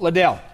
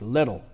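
First: "Liddell" stressed on the second syllable, luh-DELL; wrong pronunciation. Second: "Liddell" stressed on the first syllable, LID-ul; correct pronunciation. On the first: Preacher showing the congregation the mistaken name, "Liddell" as luh-DELL. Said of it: "It's not Liddell". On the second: Preacher correcting the runner's name for listeners, "Liddell" as LID-ul. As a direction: say "Liddell" to rhyme with "middle". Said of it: "That's how you pronounce it". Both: Shown as a demonstration.

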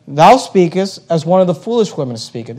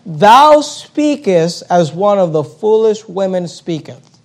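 First: Said in the usual way. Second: Each word laid out slowly; slow scripture reading. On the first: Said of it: "He says". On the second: Shown as a demonstration. Preacher reading Job's reply to his wife, slow and deliberate. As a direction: read the verse slowly for weight. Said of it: "notice what he says".

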